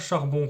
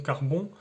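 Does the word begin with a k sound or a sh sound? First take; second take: sh; k. First: The word begins with a sh sound. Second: The word begins with a k sound. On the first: This is the standard Parisian pronunciation. "le son parisien ch" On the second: This is the regional pronunciation used in the song. "est souvent remplacé par le son que"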